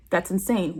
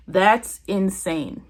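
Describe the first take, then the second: First: Said in the usual way. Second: "that's insane" slowly drawn out, each word weighted; emphatic disbelief. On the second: Real, not acted. Vlogger judging a careless excuse, "that's insane" slow and emphatic. Stressing how absurd the reply is.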